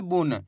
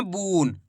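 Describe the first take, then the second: First: बुन with a short, quick u; short vowel. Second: बून with the u drawn out long; long vowel. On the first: Teacher showing pupils the right reading, बुन with short u. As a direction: say बुन without stretching the vowel. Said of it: "इसी प्रकार से पढ़ना है". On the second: Teacher showing pupils the mistake, बून with overlong u. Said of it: "ऐसे नहीं पढ़ना". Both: Shown as a demonstration.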